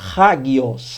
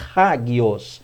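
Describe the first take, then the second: First: The word begins with a breathy h sound. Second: The word begins with a breathy h sound.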